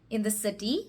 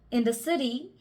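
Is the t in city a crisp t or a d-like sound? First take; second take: crisp t; d-like. First: The t in city is a crisp t. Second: The t in city sounds like a d. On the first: "read out the sentence in our own accent" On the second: "change the T sounds with the D sounds"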